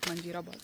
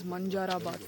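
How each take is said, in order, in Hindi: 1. दूसरा स्वर 'ee' जैसा बोला जाता है। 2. दूसरा स्वर 'a' जैसा बोला जाता है। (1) "not Manjirabad" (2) "It is Manjarabad Fort"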